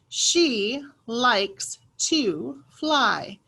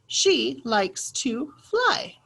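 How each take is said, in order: First: The sentence is read at a slower pace. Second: The sentence is read at a faster pace.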